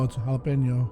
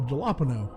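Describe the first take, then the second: First: The word begins with an H sound. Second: The word begins with a J sound. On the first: The speaker calls it right. "the J makes an H sound" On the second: The speaker calls it wrong. "an American looking at it with American English, you'd be like, oh"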